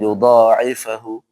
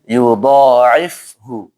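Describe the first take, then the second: First: An extra vowel is heard after the f. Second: The f runs straight into the h. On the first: The speaker calls it wrong. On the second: The speaker calls it right. "tapi yudha'ifhu. Jadi langsung pas ke makhrajnya"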